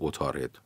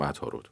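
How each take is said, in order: First: It uses the old classical pronunciation of the word. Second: It uses the modern everyday pronunciation of the word. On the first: This is the old form used in classical poetry. "کسی نمیگه عطارد" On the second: This is the form used in standard modern speech. "میگیم عطارد"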